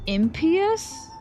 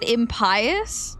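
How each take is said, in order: First: The middle part does not sound like pious. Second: The middle part sounds like the word pious. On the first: "I guess it was impious?" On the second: "Cause pious is how you pronounce that"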